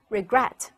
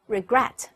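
First: The stress is on the second syllable. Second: The stress is on the second syllable.

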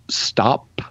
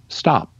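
First: The final p is released with a puff of air. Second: The final p is not released with air. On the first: "instead of saying stop" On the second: "you would just say stop"

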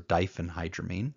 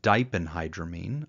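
First: The 'ph' is said as an f sound. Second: The 'ph' is not said as an f sound. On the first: "I've heard other people make a f sound" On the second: "I pronounce the first one diphenhydramine"

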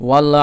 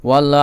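The two takes are said the same way.

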